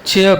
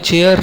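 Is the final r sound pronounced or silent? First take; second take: silent; pronounced. First: The final r sound is silent. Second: The final r sound is pronounced. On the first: The speaker calls it right. "आर हमेशा आखिर पे silent है" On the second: The speaker calls it wrong. "चेयर नहीं"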